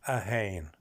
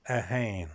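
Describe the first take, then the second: No difference in how they are said.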